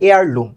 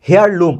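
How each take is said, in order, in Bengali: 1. শব্দটি সরাসরি একটি স্বরধ্বনি দিয়ে শুরু হয়। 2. শব্দটি h ধ্বনি দিয়ে শুরু হয়। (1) "এটা এয়ারলুম" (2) "আমরা অনেকে বলি না"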